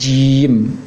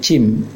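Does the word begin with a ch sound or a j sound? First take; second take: j; ch. First: The word begins with a voiced j sound. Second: The word begins with a voiceless ch sound. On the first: The speaker calls it right. "Pengucapannya tekankan tengah lisan ke langit-langit" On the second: The speaker calls it wrong. "Jangan sampai terucap seperti cim"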